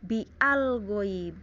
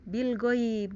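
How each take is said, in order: First: The article's vowel is pronounced separately. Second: The article's vowel is dropped and linked. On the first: The speaker calls it wrong. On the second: The speaker calls it right. "bacanya ya"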